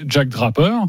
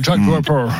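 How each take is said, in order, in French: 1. Le nom est prononcé d'une voix normale. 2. Le nom est prononcé comme si on avait une pomme de terre dans la bouche. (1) "Si je parle normalement" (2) "si je mets évidemment une pomme de terre"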